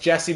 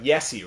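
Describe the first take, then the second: First: The name starts with a J sound. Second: The name starts with a Y sound. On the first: "my name's Jesse" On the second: "Pronounced the same way as you do for Yuha"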